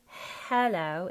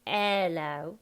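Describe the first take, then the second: First: "hello" with a strong breathy h; slow HELLO, h fully sounded; H pronounced. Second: "hello" starting on the vowel, ello; loud ELLO, no h; H dropped. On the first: Coach showing the wrong way, H pronounced. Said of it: "so it's not hello". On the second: Coach showing the Cockney way, H dropped. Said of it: "No beginning H's". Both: Shown as a demonstration.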